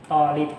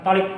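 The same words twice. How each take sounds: First: The first vowel is held long. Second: The first vowel is cut short. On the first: The speaker calls it right. "karena dia pakai mat ya ... Jadi kita bacanya juga tolib" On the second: The speaker calls it wrong. "Jangan tolib"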